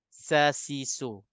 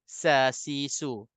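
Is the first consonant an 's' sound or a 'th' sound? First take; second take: s sound; s sound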